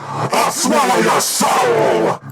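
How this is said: It is said in a demonic Deadite voice.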